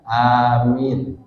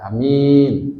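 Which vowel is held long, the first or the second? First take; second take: first; second. First: The first vowel is long, the second short. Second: The first vowel is short, the second long. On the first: "a-nya panjang, minnya pendek" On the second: "pendek, minnya panjang, berarti percaya"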